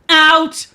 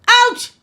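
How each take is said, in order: First: The call is softer, without a strong belt. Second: The call is sharp with a strong belt.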